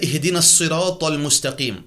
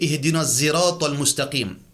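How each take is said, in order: First: The word sirat begins with an s sound. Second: The word sirat begins with a z sound. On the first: This is the usual reading. "nous nous lisons" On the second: This is the reading in another Arabic dialect. "Dans un dialecte arabe, tu peux dire ... Sirat vient zirat ... zai"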